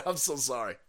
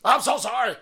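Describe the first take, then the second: First: Said in the usual way. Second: High, loud overdone "sorry"; exaggerated apology. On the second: Real, not acted. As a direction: ham up the apology.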